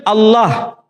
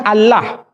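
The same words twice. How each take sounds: First: Allah with a dark, heavy double L; Arabic pronunciation. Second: Allah with plain open a in both syllables; light L and clear ah in Allah; read as written. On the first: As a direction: say Allah as "Al-loh", vowel rounded. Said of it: "mereka serempak menyebutnya dengan pronunciation". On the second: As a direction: say Allah by its letters, "Al-lah". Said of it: "tidak dibaca sesuai dengan tulisan". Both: Shown as a demonstration.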